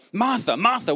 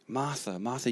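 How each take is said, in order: First: It is said in a harsh, scolding tone. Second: It is said in a gentle, tender tone.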